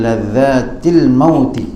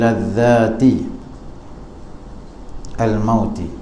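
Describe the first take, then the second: First: The words run together without a separate 'al'. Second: The article 'al' is voiced separately before mauti.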